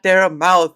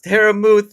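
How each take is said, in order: First: The second name's vowel sounds like 'mouth'. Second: The second name's vowel sounds like 'moose'. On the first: The speaker calls it wrong. "not Dare Mouth" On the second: The speaker calls it right. "it's Dare Muth"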